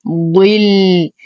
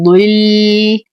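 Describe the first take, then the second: First: Said in the usual way. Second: ضل recited slowly with the ض only lightly heavy; slow recited word, lightly heavy ض. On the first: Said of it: "ننتبه كثيرًا لحرف الضاد". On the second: Shown as a demonstration. Teacher demonstrates a light heavy ض, slow recitation. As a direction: give the ض in ضل the lightest heaviness, slowly. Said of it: "فنعطيه أقل درجات التفخيم".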